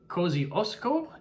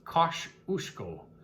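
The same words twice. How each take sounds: First: It is said with an Australian English pronunciation. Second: It is said with a Polish pronunciation. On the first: "in Aus Aus Aussie English" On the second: "any nearby Poles who would have pronounced it"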